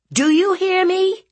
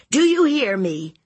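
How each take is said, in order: First: Very high, loud rising shout; furious aunt. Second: High, loud falling demand; stern aunt. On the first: Aunt demanding nephew obey, shouting angrily. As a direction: yell the question for an answer. Aunt repeats, more forceful. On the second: Aunt ordering nephew to heed her, stern. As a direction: demand his attention firmly. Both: Acted.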